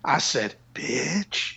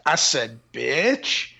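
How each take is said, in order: First: It is said in a whisper. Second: It is said in a full voice.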